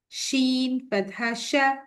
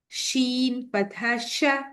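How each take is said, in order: No difference in how they are said.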